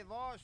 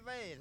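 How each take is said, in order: First: "vase" said vahz, with a broad aw vowel and a long z. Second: "vase" said vayce, rhyming with face. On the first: Auctioneer offering one way to say "vase", slow vahz. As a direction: stretch "vase" out slowly as vahz. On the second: Auctioneer offering the other way to say "vase", vayce. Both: Shown as a demonstration. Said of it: "some say vase".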